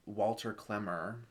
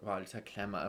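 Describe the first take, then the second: First: The name is said in a casual, anglicized way. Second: The name is said in a full native-style way.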